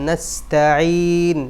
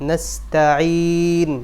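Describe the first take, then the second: No difference in how they are said.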